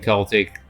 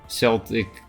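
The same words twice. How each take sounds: First: The word begins with a hard K sound. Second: The word begins with a soft S sound. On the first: It refers to the culture. "the culture" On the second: It refers to the football team. "the football team"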